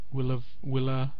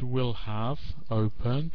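First: The words are run together with a linking v. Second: The words are said separately, without linking. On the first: The speaker calls it right. "but will have opened" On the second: The speaker calls it wrong. "Not will have opened"

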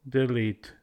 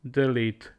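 No difference in how they are said.

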